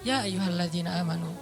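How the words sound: It is said calmly in a relaxed voice.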